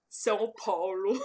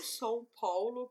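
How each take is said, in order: First: "São Paulo" said slowly, drawn out in an odd sing-song tune; odd intonation. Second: "São Paulo" said slowly, drawn out, rising at the end in a strange tune; odd intonation. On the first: Answering the Brazilian cashier, tense, with odd drawn-out "São Paulo". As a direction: stretch out "São Paulo" with a strange lilt, nervous. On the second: Retelling her nervous answer to the cashier, slow rising "São Paulo". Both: Retold or imitated. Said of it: "Mas eu falei com essa entonação".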